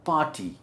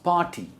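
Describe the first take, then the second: Both takes have the same delivery.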